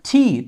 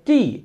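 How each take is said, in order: First: It is said in a British-style pronunciation. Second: It is said in a Bengali-style pronunciation. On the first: The speaker calls it right. "But ব্রিটিশরা এটাকে বলে টি" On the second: The speaker calls it wrong. "আমরা কিন্তু সচরাচর এটাকে টি বলে থাকি"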